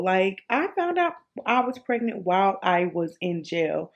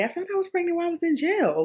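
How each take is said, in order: First: Said in the usual way. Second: Rushed blurt. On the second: Real, not acted. Blurting the jail detail.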